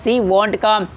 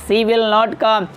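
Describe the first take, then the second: First: The verb is shortened to one syllable, won't. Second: The verb is said as two separate words. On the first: "विल नॉट को वॉन्ट पढ़ते हैं" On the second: "आप इसको इस तरह से बोल सकते हैं"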